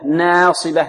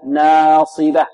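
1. الفتحة في أوله تميل نحو صوت الكسرة. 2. الفتحة في أوله فتحة متوسطة عادية، غير مائلة. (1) "البعض يميلها ... يأتي بها ماذا؟ ممالة" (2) "ينبغي أن تأتي بالألف مرققة مفتوحة فتحا متوسطا"

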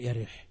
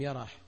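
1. الصوت بعد الراء هو i. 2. الصوت بعد الراء هو a. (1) "بكسر الراء" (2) "بفتح الياء والراء"

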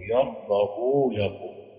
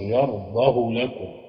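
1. الهاء 'h' بعدها حركة طويلة. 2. الهاء 'h' بعدها حركة قصيرة. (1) "اللي هيشبع الباقون" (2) "القصر"

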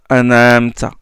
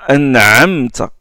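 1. Le son 'ayn' est superficiel et faible. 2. Le son 'ayn' est profond et sonore. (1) "certains prononcent an'amta" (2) "Il faut dire an'amta, c'est une sonore"

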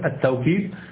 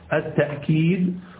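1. في الكلمة صوت واو بعد التاء. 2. في الكلمة همزة بعد التاء. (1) "تقوله بالواوي" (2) "وتقوله بالهمزة"

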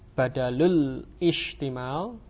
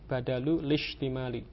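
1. Hamzah sebelum ishtimal diucapkan. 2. Hamzah dihilangkan, lalu bunyi l langsung menyambung. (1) "hamzahnya wasal, tidak diucapkan, sehingga membacanya bukan"

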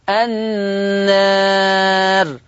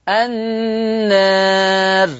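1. صوت الألف الطويل يميل قليلاً نحو e. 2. صوت الألف الطويل يميل قليلاً نحو e.

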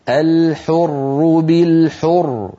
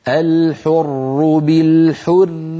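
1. الراء الأخيرة مفخمة، والعبارة تقف. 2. الراء الأخيرة مرققة، والكلام يتصل. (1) "إن وقفنا نقول الحر بالحر" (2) "ففي الوصل الحر بالحر والعبد"

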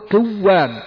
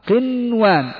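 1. يُدغم صوت النون في الصوت الذي بعده. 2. يُنطق صوت النون واضحًا.

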